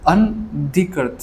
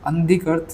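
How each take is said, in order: First: Slow, broken-up reading of अनधिकृत; careful pronunciation. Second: Said in the usual way. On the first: Shown as a demonstration. Teacher checking his reading of a hard word, slow and careful. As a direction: sound out अनधिकृत slowly, part by part. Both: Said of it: "मैं सही पढ़ रहा हूँ".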